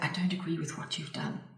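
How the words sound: The voice sounds timid, hesitant and apologetic. "you could call that very passive"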